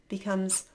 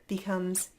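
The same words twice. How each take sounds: No difference in how they are said.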